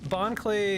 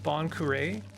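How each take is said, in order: First: The second word sounds like one syllable, 'clay'. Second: The second word sounds like two syllables, 'ku-ray'. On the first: The speaker calls it wrong. "that name is actually mispronounced" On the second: The speaker calls it right. "should be pronounced Bon Curé"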